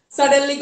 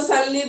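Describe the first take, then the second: First: Said in the usual way. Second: "suddenly" with the middle syllable dropped; shortened misreading. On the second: Shown as a demonstration. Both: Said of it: "छोटा कर देना अपने आप ही".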